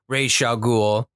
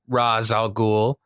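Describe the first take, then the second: First: The first word ends with a zh sound. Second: The first word ends without a zh sound.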